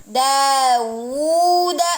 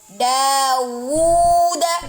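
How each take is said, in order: First: A clear w sound separates the vowels. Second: A clear w sound separates the vowels.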